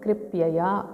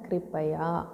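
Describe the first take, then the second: First: The word has an extra 'ya' syllable. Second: The word has no extra 'ya' syllable. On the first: The speaker calls it wrong. "यहाँ पढ़ेंगे कृपयया" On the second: The speaker calls it right. "शुद्ध शब्द होता है कृपया"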